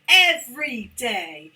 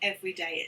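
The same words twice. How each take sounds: First: The vowels are stretched out and emphasized. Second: The vowels are short and flat. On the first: The speaker calls it right. "so emphasize that" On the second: The speaker calls it wrong. "not every day"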